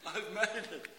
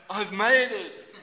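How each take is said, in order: First: Higher pitch without the shout; spent, high-pitched relief; mock relief. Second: Loud, high, slow cry of relief; drawn-out triumphant shout; mock triumph. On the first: Worker clocking on in time, mock relief. Same words, said softer after shout. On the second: Worker clocking on in time, mock triumph.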